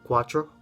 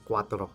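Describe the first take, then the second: First: It is said with an American accent. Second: It is said with a Spanish accent. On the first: The speaker calls it wrong. "I used to pronounce cuatro like a gringo" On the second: The speaker calls it right. "that's how I was able to pronounce cuatro"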